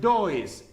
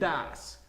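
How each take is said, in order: First: The vowel sounds like 'oh', as spelled. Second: The vowel is a short 'uh' sound. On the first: The speaker calls it wrong. "este no es does" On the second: The speaker calls it right. "este es das"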